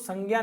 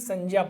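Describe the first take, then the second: First: The last syllable starts with a 'gy' sound. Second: The last syllable starts with a 'j' sound. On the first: The speaker calls it wrong. "इसको संज्ञा नहीं" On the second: The speaker calls it right. "संज्ञा पढ़ा जाना चाहिए"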